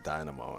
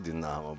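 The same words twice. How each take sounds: First: The word has an American pronunciation. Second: The word has a Ukrainian pronunciation. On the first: This is how Americans say it. "the Americans say Dynamo" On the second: This is how the locals say it. "They say Dynamo"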